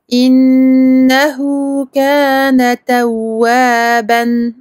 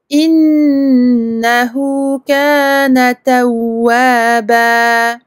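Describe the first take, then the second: First: The last word ends with an n sound. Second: The last word ends with a long vowel. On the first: The speaker calls it wrong. "au lieu de dire innahu kana tawwaban, je vais pas dire ça" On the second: The speaker calls it right. "Je vais dire innahu kana tawwaba"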